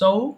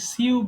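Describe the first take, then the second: First: The word is said with an 'oh' sound. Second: The word is said with a 'syoo' sound. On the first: The speaker calls it right. "The pronunciation of this word is সো" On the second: The speaker calls it wrong. "এটা অনেকে ভুল করে সিউ বলে"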